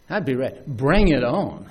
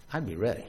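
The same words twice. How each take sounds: First: I'd be ready said firmly, at full voice; confident. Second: I'd be ready said softly, low, to himself; quiet musing. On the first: Preacher declaring he'd be ready, firm and confident. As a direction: say it with growing conviction. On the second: Preacher imagining himself as a disciple, softly. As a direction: murmur it inward, trying the thought. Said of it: "I'd be ready. I'd be ready". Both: Pretend.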